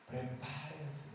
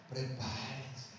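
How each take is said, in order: First: Prepárense again, low, slow and quieter, sinking away; softer repeat. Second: Prepárense, low and slow, every syllable stretched; drawn-out warning. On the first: Preacher repeating his warning to fathers, fading low. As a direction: let prepárense fade softly. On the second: Preacher warning fathers of daughters, slow and low. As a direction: draw out prepárense like a solemn warning. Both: Real, not acted. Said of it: "Los que tengan hijas".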